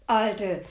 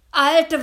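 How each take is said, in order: First: Louder gruff call from the devil; suspicious devil calling his grandmother; devil's bellow. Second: Much louder, much higher furious shout; fed-up devil shouting at grandmother; devil's roar. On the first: Devil bursts in, sniffing. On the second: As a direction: roar at her this time. Devil woken again, angrier. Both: Acted.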